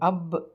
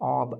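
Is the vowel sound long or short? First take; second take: short; long. First: The vowel is a short 'a' sound. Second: The vowel is a long open 'aa' sound. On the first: "ஆ அ ரெண்டு sound பார்த்தோம்" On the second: "ஆ அ ரெண்டு sound பார்த்தோம்"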